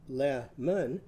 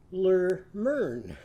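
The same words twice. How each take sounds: First: "lemon" said plainly, two clear syllables. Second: "Lermern" with both vowels turned to er. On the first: Teacher models "lemon" before changing its vowels. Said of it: "Lemon has two syllables". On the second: Teacher turns "lemon" into "Lermern" with er sounds. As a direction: say "Lermern", er in each syllable. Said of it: "So now it's going to be what". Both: Shown as a demonstration.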